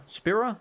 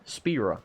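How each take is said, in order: First: Spira? said with a short i, SPIH-ra, pitch rising; questioning pronunciation. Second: Spira. said with a long ee, SPEE-ra, falling; settled pronunciation. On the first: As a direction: try Spira? as SPIH-ra with a puzzled upturn. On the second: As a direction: land Spira. as SPEE-ra, final and sure. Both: Shown as a demonstration. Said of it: "I think they pronounce it Spira".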